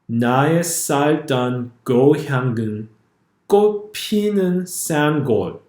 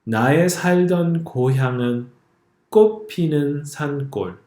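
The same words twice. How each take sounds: First: The consonants have English-like sounds. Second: The consonants have native Korean sounds. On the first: The speaker calls it wrong. "I will read it a second time using the romanization guide" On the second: The speaker calls it right. "I'm going to read the first line for you"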